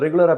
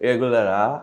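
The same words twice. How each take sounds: First: The word is said quickly and loosely. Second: The word is said slowly with every sound clear. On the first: This is how it comes out in everyday talk. The speaker calls it wrong. "ரெகுலரான்னு நான் சொல்றேன் வந்துருது" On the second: This is how it must sound in a dubbed line. The speaker calls it right. "கிளாரிட்டியும் வரணும்"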